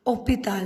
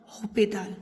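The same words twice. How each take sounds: First: Hospital with a silent H, "opital", starting on the vowel; French pronunciation, silent H. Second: Hospital with the H pronounced, "hopital"; wrongly sounded H. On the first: Teacher showing how the French word is pronounced, hospital with mute H. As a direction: drop the H of hospital and begin on a clean O. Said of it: "it is pronounced as". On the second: Teacher showing learners what not to say, hospital with audible H. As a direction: voice the H at the start of hospital, as the mistake to avoid. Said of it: "not hospital". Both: Shown as a demonstration.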